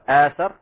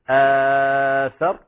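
First: The long vowel is held short. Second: The long vowel is held medium length. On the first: "بالقصر" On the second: "بالتوسط"

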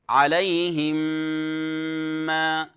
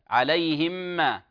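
First: The m sounds merge with a held nasal hum. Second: The m sounds merge without a nasal hum. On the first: The speaker calls it right. "ميم وبعدها ميم شددت" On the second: The speaker calls it wrong. "يدغمها في الميم من غير غنة"

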